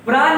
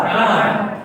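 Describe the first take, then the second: First: "प्राण" ending in a plain dental न; higher "प्राण", said with न for ण; wrong pronunciation. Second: "प्राण" ending in a retroflex ण; correct pronunciation. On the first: Teacher rejecting a common error, wrong pronunciation. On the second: Teacher correcting the common error, correct pronunciation. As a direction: curl the tongue back for ण in "प्राण". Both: Shown as a demonstration. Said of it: "प्राण नहीं होता".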